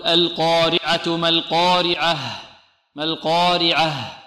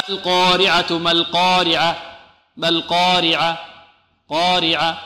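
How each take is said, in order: First: "القارعة" slow, with the final ha clearly breathed out; نطق صحيح بإيضاح الهاء; correct pronunciation. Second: "القارعة" with the final ha swallowed; نطق خاطئ; wrong pronunciation. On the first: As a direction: end "القارعة" on a clear audible ha. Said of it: "نقول: لا بد من إيضاح الهاء". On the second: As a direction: show the mistake, dropping the final ha of "القارعة". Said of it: "لا نقول". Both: Shown as a demonstration.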